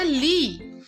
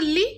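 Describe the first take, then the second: First: The vowel is long and drawn out. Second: The vowel is short and said quickly. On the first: "बड़ी की मात्रा लगाएंगे तो हो जाएगा ली" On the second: "छोटी की मात्रा लगाएंगे तो होगा ली"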